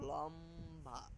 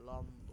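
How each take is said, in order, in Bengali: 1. শব্দটি 'a' স্বরবর্ণ দিয়ে শেষ হয়। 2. শব্দটি 'o' স্বরবর্ণ দিয়ে শেষ হয়। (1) "আমিও অনেক সময় বলে ফেলি লম্বা লম্বা, কিন্তু লম্বা হবে না" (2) "এখানে হবে লম্ব"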